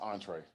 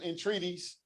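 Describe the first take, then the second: First: The word is said as two short syllables. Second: The word is stretched with extra syllables at the end. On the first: The speaker calls it right. "Baby, it's an entree" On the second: The speaker calls it wrong. "If you can't pronounce it, don't order it. She talk"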